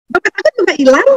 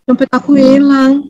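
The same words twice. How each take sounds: First: Higher, bright mock-cheerful telling; cheerful despite loss. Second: Slow, mildly mournful mock lament; sad. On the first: A sanguine telling of her lost wallet, laughing. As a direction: say it like it's funny news. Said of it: "tapi mukanya ketawa". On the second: A melancholic losing her wallet, mock sad. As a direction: sigh it out like a let-down melancholic. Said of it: "Ya, dia sedih lah".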